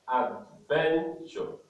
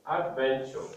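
First: "Adventure" slowly split into three syllables; syllabified. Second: Said in the usual way. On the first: Shown as a demonstration. Teacher showing three syllables, "Adventure" slowly separated. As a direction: say "Adventure" as ad, ven, ture, with gaps. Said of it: "It has three syllables". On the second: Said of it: "we are going to syllabify words".

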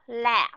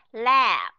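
First: "la" shorter, stopped on a silent p; short vowel, closed ending. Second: "la" drawn out then closed on a voiced b; long vowel, closed ending. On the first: Teacher contrasting closed-mouth readings, short voiceless ending. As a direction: close the lips early on "la". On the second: Teacher contrasting closed-mouth readings, long voiced ending. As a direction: hold the vowel of "la", then shut the lips. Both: Shown as a demonstration. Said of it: "Đóng miệng".

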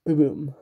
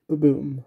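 Both takes have the same delivery.

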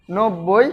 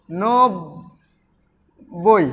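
First: Said in the usual way. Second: নব্বই as নব, long pause, বই; syllable split. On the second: Shown as a demonstration. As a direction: break নব্বই slowly into নব and বই. (নব্বই ভেঙে নব, বই) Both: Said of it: "এভাবে".

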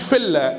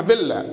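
First: فيلا said "filla" with an unvoiced f; wrong F pronunciation. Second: فيلا said "villa" with a voiced v; correct V pronunciation. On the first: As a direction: start فيلا on a plain f, as "filla". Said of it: "ما اسمهاش فيلا". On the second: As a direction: buzz the v at the start of فيلا. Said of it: "اسمها فيلا". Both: Shown as a demonstration.

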